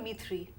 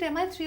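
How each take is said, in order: First: MI is spoken as a single word. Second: MI is spoken as two separate letters. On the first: "or Mi three?" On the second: "Is it M I three"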